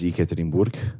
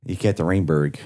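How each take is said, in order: First: It is said with a Russian-style pronunciation. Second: It is said with an American, southern-sounding accent.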